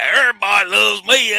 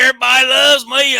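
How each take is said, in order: First: High, loud, smug mimicry of Joey; mock arrogant Joey. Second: Strut in bragging like a vain wrestler; mock Joey Gross. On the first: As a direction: show off like a vain wrestler. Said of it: "He's arrogant". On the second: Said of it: "walk in the door and go".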